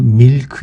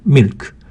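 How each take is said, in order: First: The vowel is drawn out long. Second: The vowel is clipped short. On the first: The speaker calls it wrong. "밀크 이렇게 하면 조금 알아듣기 힘들 수 있습니다" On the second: The speaker calls it right. "milk 이렇게 짧게 소리 냅니다"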